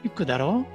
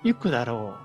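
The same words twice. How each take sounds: First: The pitch rises at the end. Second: The pitch falls at the end. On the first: The speaker checks if their information is correct. "끝을 올려주면은" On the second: The speaker is guessing something will happen. "끝을 내려주는 상태로"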